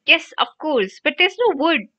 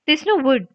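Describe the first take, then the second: First: High, fretful cry; flustered and despairing; distressed cry. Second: Higher-pitched mimicry of a fretful friend; mildly mocking parroted complaint; mocking quote. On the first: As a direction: wail it helplessly in a crisis. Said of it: "Hermione cried". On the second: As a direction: echo it in scorn. Ron mockingly quotes Hermione's earlier cry. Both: A narrator's reading.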